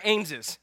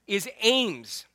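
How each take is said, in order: First: Ames said as Ameses, with an extra syllable; local pronunciation. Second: Said in the usual way. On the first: Shown as a demonstration. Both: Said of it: "or as they'd say around here".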